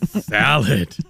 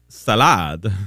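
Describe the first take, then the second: First: The stress is on the first syllable. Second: The stress is on the second syllable.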